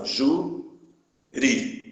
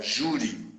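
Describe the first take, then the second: First: "júri" broken into two syllables, long pause between; split into syllables. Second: Said in the usual way. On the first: Shown as a demonstration. Teacher showing the class how the word divides, syllable by syllable. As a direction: say "júri" slowly, one syllable at a time. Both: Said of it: "Se separar as sílabas".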